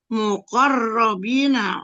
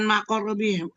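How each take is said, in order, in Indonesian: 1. Suku kata pertama diucapkan dengan vokal 'u'. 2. Suku kata pertama diucapkan dengan vokal 'a'. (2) "bukan maqarrabin"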